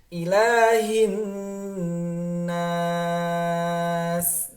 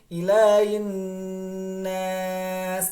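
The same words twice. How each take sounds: First: The h sound is pronounced clearly. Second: The h sound is not pronounced clearly. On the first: The speaker calls it right. "harus dibaca dengan dengan jelas" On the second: The speaker calls it wrong. "Bukan ilahin ilahin nas... tidak dibaca dengan jelas"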